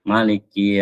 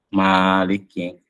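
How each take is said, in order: First: The first vowel is kept short. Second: The first vowel is held long. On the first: It follows the reading with a short vowel. "ma-nya itu tidak dipanjangkan" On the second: It follows the reading with a long vowel. "ma-nya panjang"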